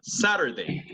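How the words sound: The middle t is softened into a flap. "And now American"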